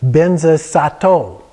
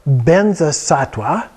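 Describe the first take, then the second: First: The word ends with the sound 'sato'. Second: The word ends with the sound 'sattva'.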